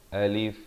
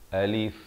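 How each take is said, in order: Both takes have the same delivery.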